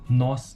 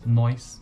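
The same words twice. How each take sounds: First: The vowel is a plain 'o' sound. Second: The vowel becomes the diphthong 'oi'.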